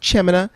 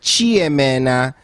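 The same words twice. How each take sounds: First: The name is said with flat, even pitch. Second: The pitch steps across the syllables like stairs. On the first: A simplified version that is easier for others to catch. "I'll say it with no accent" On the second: This is how the name is really pronounced. "it's like a staircase. Like Chemina is what my name actually is"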